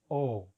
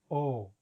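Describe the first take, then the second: The two takes are said the same way.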